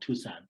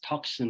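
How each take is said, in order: First: The word is said without any k sound. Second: The word is said as spelled, with a k sound. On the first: The speaker calls it right. "that's when I realized it's called Tucson" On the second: The speaker calls it wrong. "I used to pronounce as Tucson because that's what I thought, like T U C S O N"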